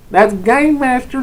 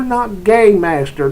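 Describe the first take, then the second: First: High, loud Southern twang on game master; hillbilly game master. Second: Game master drawn out slow in a Southern twang. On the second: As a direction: drawl game master slowly. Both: Shown as a demonstration.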